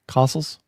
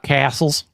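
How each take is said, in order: First: The first vowel is a broad 'ah' sound. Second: The first vowel is a flat short 'a'. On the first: The speaker calls it right. "Kind of an A H, ah" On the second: The speaker calls it wrong. "Not castles"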